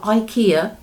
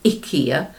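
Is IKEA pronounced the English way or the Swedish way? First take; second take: English; Swedish. First: It has the usual English pronunciation. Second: It has the Swedish pronunciation. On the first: The speaker calls it wrong. "It's not IKEA" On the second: The speaker calls it right. "Sannes in Sweden has pointed out to me it's IKEA, so I shall try and say it like that"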